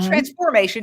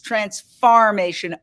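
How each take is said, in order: First: The middle syllable sounds like 'form'. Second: The middle syllable sounds like 'farm'. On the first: The speaker calls it wrong. "Not transformation" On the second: The speaker calls it right. "it's transformation, a play on words"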